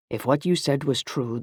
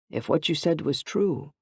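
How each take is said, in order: First: Said in the usual way. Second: "true" left hanging, unfinished; trailing off. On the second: A narrator's reading. Anthony unable to finish his confession, trailing off on "true". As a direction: let "If what you said was true" fade out. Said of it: "he trailed off".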